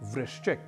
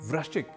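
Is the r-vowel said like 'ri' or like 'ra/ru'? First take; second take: ri; ra/ru. First: The r-vowel is said with an 'ri' sound. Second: The r-vowel is said as 'ra' or 'ru'. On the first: The speaker calls it right. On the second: The speaker calls it wrong.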